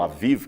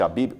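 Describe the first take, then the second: First: The word is said with v sounds. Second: The word is said with b sounds. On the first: The speaker calls it right. "que seria a melhor, melhor pronúncia" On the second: The speaker calls it wrong. "Esse mês de Abib"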